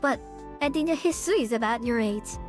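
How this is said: It is read in Akia's character voice.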